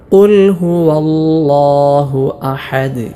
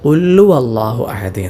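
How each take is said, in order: First: Every letter, including q and h, is clear. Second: The q and h sounds are dropped. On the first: The speaker calls it right. "ഓരോ ഹർഫുകൾക്കും നല്ല അക്ഷരസ്ഫുടത നൽകി" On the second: The speaker calls it wrong. "ഹാ ഉം വാവും ഒന്നും വെളിവാക്കാതെയുള്ള ഒരു ഉച്ചാരണമുണ്ട്"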